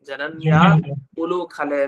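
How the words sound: The break comes after 'jananya'. It follows the actual words and their meaning. The speaker calls it right. "ವಸ್ತುತಃ ಆಗಿದೆಯಾ"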